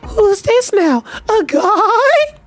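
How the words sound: It is said in a put-on girl voice.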